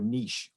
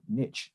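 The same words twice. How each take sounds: First: It is said in a British accent. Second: It is said in an American accent.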